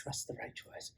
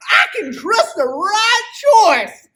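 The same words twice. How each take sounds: First: Breathy whisper under the breath. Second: High, loud, slow cowboy shout. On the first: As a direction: whisper it to yourself. Whisper before the big shout. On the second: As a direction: belt it like a rodeo cowboy. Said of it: "you got the best cowboy voice". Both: Acted.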